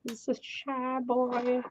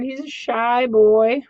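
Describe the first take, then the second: First: Soft cooing. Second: High cooing. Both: Pretend.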